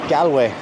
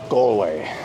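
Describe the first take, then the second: First: The first vowel is a broad 'a' sound. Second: The first vowel sounds like the one in 'all'. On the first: The speaker calls it wrong. "as some people say. ... Some people just tend to just put too much A into the the first vowel" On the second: The speaker calls it right. "It's Gal. ... Just think of the word all"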